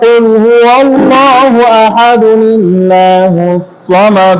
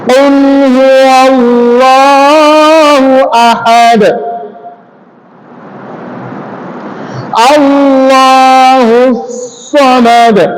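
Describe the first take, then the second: First: The verses run together in a single breath. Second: There is a breath pause between the verses.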